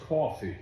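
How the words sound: The word is formed further back in the voice. The speaker calls it right. "Learn to put that back further in your voice"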